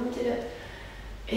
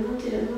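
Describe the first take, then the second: First: Slow fading whisper. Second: Said in the usual way. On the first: Shown as a demonstration. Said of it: "coach cueing, repeated word fading". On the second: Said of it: "coach cueing, repeated word".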